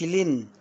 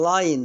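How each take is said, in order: First: The vowel is a short 'i' sound. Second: The vowel is an 'ai' diphthong. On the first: The speaker calls it wrong. "ما اقولش لين" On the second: The speaker calls it right. "ايوه تمام لاين"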